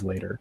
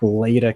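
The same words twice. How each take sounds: First: It is said in a general American accent. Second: It is said in a Boston accent.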